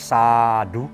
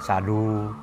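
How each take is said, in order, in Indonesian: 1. Vokal suku kata pertama panjang dan menonjol. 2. Vokal suku kata kedua ditekankan dan menonjol. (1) "maka A-nya A panjang" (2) "U-nya terlalu ditekankan"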